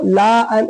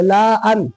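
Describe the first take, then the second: First: "लाअन" with a drawn-out laa before an; wrong stretched reading. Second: "लाअन" with a short la going straight into an; correct short reading. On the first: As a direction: stretch the first vowel of "लाअन". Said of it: "ऐसे नहीं पढ़ेंगे". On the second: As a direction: keep the first vowel of "लाअन" short. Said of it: "इसलिए इसको लाअन ऐसे नहीं पढ़ेंगे". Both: Shown as a demonstration.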